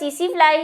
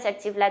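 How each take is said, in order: First: The first word sounds like 'see-see'. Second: The first word sounds like 'seck-see'. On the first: The speaker calls it right. "इसका सीसी फ्लाई ही है pronunciation, ये T तो silent है" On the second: The speaker calls it wrong. "हम इसको सेक्सी फ्लाई बोलते थे"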